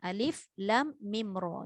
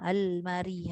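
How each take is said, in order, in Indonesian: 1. Setiap huruf diucapkan dengan nama lengkapnya. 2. Huruf-hurufnya digabung menjadi satu kata berbaris. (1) "dia bukan sebut huruf berbaris" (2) "Jangan sebut almari pula"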